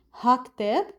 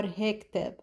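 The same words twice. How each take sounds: First: "Ha كتاب" as "hak-teb"; regional short form. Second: "he كتاب" as "hek-teb"; regional short form. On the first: Teacher comparing regional variants, shortened "ha". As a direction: open a in "Ha", run into "كتاب". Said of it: "or ha". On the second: Teacher comparing regional variants, shortened "he". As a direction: eh vowel in "he", run into "كتاب". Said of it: "depending on the region". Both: Shown as a demonstration.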